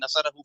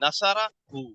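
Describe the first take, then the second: First: The two parts run together without a break. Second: The two parts are separated by a break. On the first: This is how it is actually read. The speaker calls it right. "इसको हम मिलाकर ही पढ़ेंगे" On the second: It is broken up to make it easier to follow. The speaker calls it wrong. "ये मैं आपको आसानी के लिए तोड़ के पढ़ रहा हूँ"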